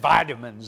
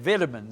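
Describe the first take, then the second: First: The word is said in an American accent. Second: The word is said in an English accent. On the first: "I kept saying vitamins" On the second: "They said vitamins. ... the English people in the way they pronounce it"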